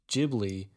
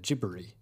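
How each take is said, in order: First: The middle consonant is a clear English L. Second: The middle consonant is a flapped R-L sound. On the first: This is the easier American way to say it. "it's easier for Americans to say Ghibli" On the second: This is the Japanese way to say it. "there's like a weird RL sound at the end of the Japanese way to say it"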